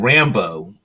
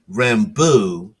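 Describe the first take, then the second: First: The name is said the plain English way. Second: The name ends like French beau, French style. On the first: "rather than Rambo, which is you know R A M B O" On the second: "in the Cajun French style, as in Rambo, like um, a loved one, a beau"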